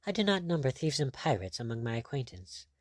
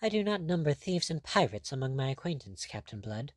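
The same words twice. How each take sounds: First: Subdued recalled phrase; echoed in thought. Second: Higher-pitched, cool rebuff; resentful. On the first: Pirate brooding over the cruel phrase, subdued. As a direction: replay the snub inwardly, understated. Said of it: "re-echoing and reverberating there". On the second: Lady resenting the captain's mockery, a higher resentful rebuff. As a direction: snub lightly, dropping away on the name. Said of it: "She resented it". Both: A narrator's reading.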